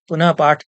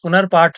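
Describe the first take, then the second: First: It is split into two words with no r. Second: It is joined into one word with an r. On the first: The speaker chose this form himself. "मैंने पुनः पाठ पुनः पाठ ऐसा शब्द का उच्चारण किया" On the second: Others used this form. "पुनर्पाठ पुनर्पाठ वे लोग सब कह रहे थे"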